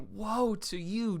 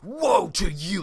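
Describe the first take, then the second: First: It is said in a soft pleading way. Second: It is said with harsh anger.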